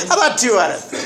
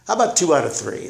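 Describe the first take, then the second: First: Laughing through the line, higher; a bright laughing replay of his own bargain. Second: Said in the usual way. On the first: Retold or imitated. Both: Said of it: "That's what I remember saying".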